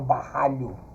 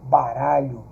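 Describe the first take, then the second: First: The r is a strong, harsh sound. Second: The r is a soft single tap. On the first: The speaker calls it wrong. "eu não falo barralho" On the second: The speaker calls it right. "ela de natureza ela já tem um som mais brando"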